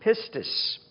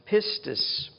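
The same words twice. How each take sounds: The two takes are said the same way.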